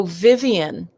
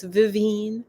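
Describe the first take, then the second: First: "Vivian" as VIV-ee-un, three syllables; common mispronunciation. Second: "Vivine" as vih-VEEN, stress at the end; correct name pronunciation. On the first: Retold or imitated. People getting her name wrong, "Vivian" said VIV-ee-un. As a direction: say "Vivian" slowly, stressing the first syllable. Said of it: "people mispronounce". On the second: Shown as a demonstration. Telling people her birth name, "Vivine" said vih-VEEN. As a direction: say "Vivine" slowly with a long ee in the last syllable. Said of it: "people don't mispronounce it".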